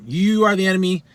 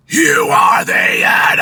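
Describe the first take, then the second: First: Said in the usual way. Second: Loud, slow, raised raspy scream; mid scream. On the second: Shown as a demonstration. Coach demonstrating the phrase as a mid scream. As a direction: belt the phrase harshly and hold the end. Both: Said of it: "as a mid scream".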